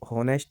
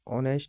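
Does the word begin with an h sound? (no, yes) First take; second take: yes; no. First: The word starts with an audible h sound. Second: The word starts directly with a vowel sound. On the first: The speaker calls it wrong. "इसको हॉनेस्ट नहीं पढ़ते हैं" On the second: The speaker calls it right. "इसको ऑनेस्ट पढ़ते हैं"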